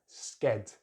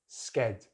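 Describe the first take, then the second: The two takes are said the same way.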